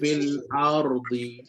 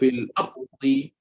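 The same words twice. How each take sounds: First: The ra is released slightly with a vibration. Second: The ra is thickened and cut off abruptly. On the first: The speaker calls it right. "lepaskan sikit" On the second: The speaker calls it wrong. "nak tebalkan ra tu punya pasal"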